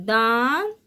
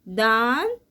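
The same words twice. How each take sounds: Both takes have the same delivery.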